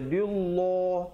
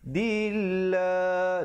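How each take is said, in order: First: The l sound is heavy and thick. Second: The l sound is light and thin. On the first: The speaker calls it wrong. "jangan pula kita baca dillah, tak betul" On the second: The speaker calls it right. "Dia kena baca nipis"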